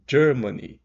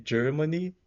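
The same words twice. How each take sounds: First: "Germany" with a clear DJ, said loud and high; loud model of DJ-ermany; soft DJ in Germany. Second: "Germany" with a short, neutral E, rising high; a light mid E in "Germany"; rising model of Germany; Germany with a schwa E. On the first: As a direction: open "Germany" with a DJ sound, loudly. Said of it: "acrescenta um D aqui na pronúncia". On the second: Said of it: "dois pontinhos depois desse E". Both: Shown as a demonstration.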